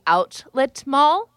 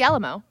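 First: Both words are said clearly with all sounds. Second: The words blur together, sounding like 'Alamo'. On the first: "I'm going to say this correctly" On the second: "then I'm going to say it how I say it"

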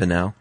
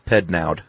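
First: The name ends without a D sound. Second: The name ends with a sounded D. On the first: "I assume the D is silent" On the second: "Or maybe not. Maybe it's Pednaud"

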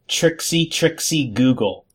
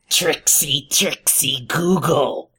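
First: It is said in the speaker's normal voice. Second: It is said in an imitation Gollum voice.

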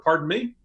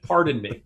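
First: It is said as a rising question. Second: It is said as a falling statement.

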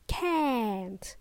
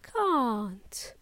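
First: It is said in an American accent with a short vowel. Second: It is said in a British accent with a long vowel. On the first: "In American English, it is can't" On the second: "In British English, this contraction of cannot is pronounced as can't with a long can't"

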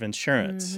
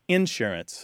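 First: The stress is on the second syllable. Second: The stress is on the first syllable. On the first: The speaker uses the more common, non-Southern pronunciation. "instead of insurance" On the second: The speaker is from the American South. "pronounce with the stress on the initial syllable"

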